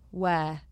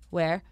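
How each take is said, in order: First: The word ends without any R sound. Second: The word ends with an audible R sound. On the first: The speaker calls it right. "take out the R's that me and Helen don't say in our accents" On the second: The speaker calls it wrong. "in the words where you would say like where"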